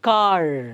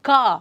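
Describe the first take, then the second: First: The final r sound is half pronounced. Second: The final r sound is silent. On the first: "Americans ಏನು ಮಾಡ್ತಾರೆ ಅದನ್ನು half pronounce ಮಾಡ್ತಾರೆ" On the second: "British people pronounce it as ಕಾ"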